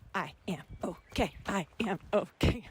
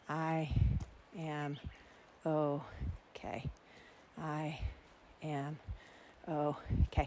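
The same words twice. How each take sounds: First: It is said fast, at a jogging pace. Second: It is said slowly, at a walking pace.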